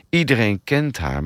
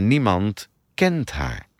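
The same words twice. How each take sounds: First: Said in the usual way. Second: KENT slowed and drawn out; slow, weighted KENT, as in truly knowing; stress on KENT. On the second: Acted. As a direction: lean slowly on the word KENT for meaning. Contrast of two kinds of knowing.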